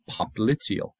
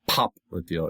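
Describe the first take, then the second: First: The stress is on the second syllable. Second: The stress is on the first syllable. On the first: The speaker calls it right. "Accent on the second syllable" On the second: The speaker calls it wrong. "not popliteal"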